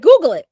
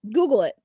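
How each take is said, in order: First: "Google" jumps up loud; punched GOOGLE. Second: Said in the usual way. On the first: Real, not acted. Streamer urging viewers to look up pictures, punched GOOGLE. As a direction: hit "Google" hard and loud. First of repeated instruction, punched.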